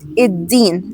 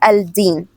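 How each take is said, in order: First: The l is silent and the d is doubled. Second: The l is clearly sounded before the d. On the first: The speaker calls it right. "So here we say it iddin" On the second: The speaker calls it wrong. "not al-din"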